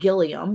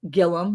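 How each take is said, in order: First: The name is said just as it is spelled. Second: The name is said differently from its spelling.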